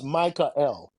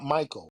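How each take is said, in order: First: The name is said in two parts, Micah-L. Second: The name is said as one smooth word. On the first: The speaker calls it right. "It's Micah L" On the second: The speaker calls it wrong. "Michael is not Michael"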